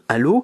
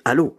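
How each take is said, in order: First: The pitch rises at the end of the word. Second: The pitch falls at the end of the word. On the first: It is asked as a normal question. The speaker calls it right. "à la place de dire allô" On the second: The question melody goes the wrong way. The speaker calls it wrong. "avec une mélodie qui descend"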